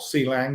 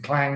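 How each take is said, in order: First: The C is said as its letter name. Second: The word is said as one blended syllable.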